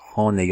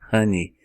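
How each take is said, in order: First: The final vowel is not an 'ee' sound. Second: The final vowel is an 'ee' sound. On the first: The speaker calls it wrong. "Você não vai dizer" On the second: The speaker calls it right. "você vai simplesmente dizer I"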